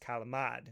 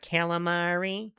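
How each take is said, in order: First: The word ends clipped, without a final vowel. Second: The word ends with a full final vowel. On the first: The speaker calls it right. "the correct way to say it according to my Italian family" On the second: The speaker calls it wrong.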